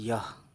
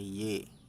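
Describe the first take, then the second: First: The word ends in an 'ah' vowel. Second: The word ends in an 'e' vowel. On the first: The speaker calls it wrong. "ना कि यह" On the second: The speaker calls it right. "ये और छोटी है ये"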